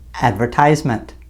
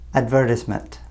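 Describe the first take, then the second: First: The stress falls in the American position. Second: The stress falls in the British position. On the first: "In North America, we would say this is an advertisement" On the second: "our British friends would say advertisement"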